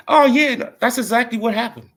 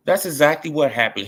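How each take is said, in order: First: Excited agreement. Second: Said in the usual way. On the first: Real, not acted. Eager agreement.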